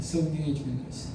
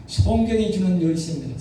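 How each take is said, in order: First: 성경이 주는 열쇠 dropped soft and low as an echo; softer, lower repeat. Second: Said in the usual way. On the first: Shown as a demonstration. Preacher softly echoing the key phrase for the congregation. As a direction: repeat it quietly to let it sink in.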